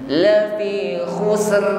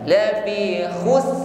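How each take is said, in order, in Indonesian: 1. Kata ini diakhiri dengan bunyi r yang bergetar. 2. Kata ini diakhiri tanpa bunyi r sama sekali. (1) "sempurnakan sin dengan rakhwah ditutup dengan ra" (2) "ra-nya hilang ya"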